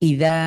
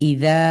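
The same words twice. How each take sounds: No difference in how they are said.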